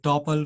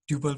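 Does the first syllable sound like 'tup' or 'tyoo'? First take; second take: tup; tyoo. First: The first syllable sounds like 'tup'. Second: The first syllable sounds like 'tyoo'. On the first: "मैले टपल पनि भन्छ" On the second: "ट्युपल पनि भन्छ जे नि भन्न सकिन्छ"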